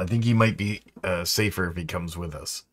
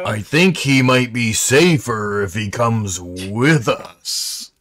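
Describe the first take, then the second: First: The sentence is said at normal volume. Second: The sentence is said noticeably louder.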